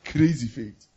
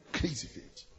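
First: Said in the usual way. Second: Hushed whisper of "Crazy faith". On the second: Real, not acted. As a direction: breathe it out in awe. Repeated, second take whispered.

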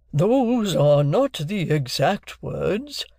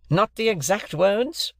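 First: Very slow, high, drawn-out objection; Wopsle. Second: High, slow, incredulous repeat; bitter echo. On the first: Wopsle answers the stranger, slow and pedantic. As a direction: stretch each word pedantically. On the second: Stranger repeats Wopsle's objection, bitter. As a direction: throw it back bitterly as a question. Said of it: "repeated the gentleman bitterly". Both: A narrator's reading.

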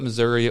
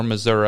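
First: "Missouri" with a final ee sound; Missouri ending in "ee". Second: "Missouri" with a final uh sound; Missouri ending in "uh". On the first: Host recalling a local fight over the name, "Missouri" ending ee. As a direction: say "Missouri" as mi-ZUR-ee. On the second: Host recalling a local fight over the name, "Missouri" ending uh. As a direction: say "Missouri" as mi-ZUR-uh. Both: Shown as a demonstration. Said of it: "there was a local fight".

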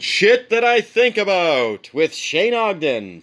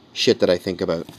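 First: High, sing-out title announcement; mock show announcer. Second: Said in the usual way. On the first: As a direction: announce it like a cheesy segment title. Announces an imagined segment title.

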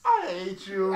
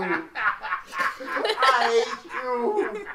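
First: Said in the usual way. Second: Slow laughing goblin croak. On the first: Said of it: "That voice was too spot on". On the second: Pretend. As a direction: drag it out like a cackling goblin. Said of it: "hearty goblin laugh".

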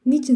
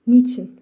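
First: Higher, loud pleading; a pained wail, pitched higher; repeated cry. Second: Loud, despairing outburst; a loud pained wail of a question; anguished cry. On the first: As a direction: cry it out again, climbing in pitch. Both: A narrator's reading. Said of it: "Ferdinand feryat etti".

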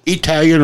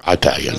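First: "Italian" opening with an ee sound; E pronunciation. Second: "Italian" opening like the word eye; long I pronunciation. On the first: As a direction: say "Italian" as ee-TAL-yun. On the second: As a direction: say "Italian" as eye-TAL-yun. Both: Shown as a demonstration. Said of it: "E or".

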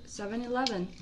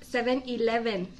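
First: SEVEN ELEVEN with English V, softly; soft, English-accented seven eleven; correct English pronunciation. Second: SEVEN ELEVEN with Spanish B and vowels; hispanicized seven eleven; wrong pronunciation. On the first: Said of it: "se dice seven eleven". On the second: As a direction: say "seh-ben ee-leh-ben" for seven eleven. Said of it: "No se dice seven eleven". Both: Shown as a demonstration.

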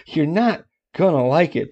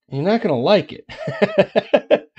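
First: Said through a laugh, higher. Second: Slow, high, drawn-out teasing warning. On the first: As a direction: chuckle while you warn them. Repeats warning through a laugh. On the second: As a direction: stretch it out playfully, higher and louder. Teasing warning before bad news. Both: Acted.

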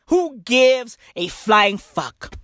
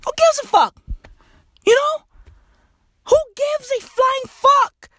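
First: Said in the usual way. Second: A much higher squeaky retake; high mock voice. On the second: Shown as a demonstration. A comic mocking his own line in a high squeak.

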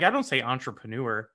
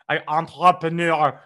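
First: Said in the usual way. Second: ENTREPRENEUR loud in mock French, final R swallowed; obnoxious fake French. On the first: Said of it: "if I know it's a French word". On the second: Shown as a demonstration. Host showing off French words, obnoxious French accent. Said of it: "most obnoxious way to pronounce a word".

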